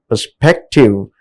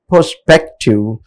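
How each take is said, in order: First: "perspective" stressed on the middle syllable, SPEC. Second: "perspective" with stress moved to the first syllable, PER; misplaced stress. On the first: Teacher showing stress placement to students, "perspective" stressed on SPEC. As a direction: lift and hold SPEC in "perspective". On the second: Teacher showing students' confusion, "perspective" stressed on PER. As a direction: punch PER at the start of "perspective". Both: Shown as a demonstration. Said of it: "confused in placing correct".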